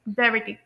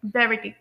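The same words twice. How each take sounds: First: The t is a clear, crisp t sound. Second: The t is a clear, crisp t sound.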